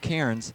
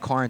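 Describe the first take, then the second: First: The name is said with an 'air' vowel. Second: The name is said with an 'ar' vowel. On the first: This is how the name is actually pronounced. The speaker calls it right. "It's Cairns" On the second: This is how the name had been mispronounced. The speaker calls it wrong. "We've been saying Carnes"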